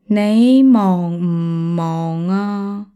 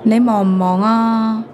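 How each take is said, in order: First: It is said more slowly. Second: It is said at normal speed.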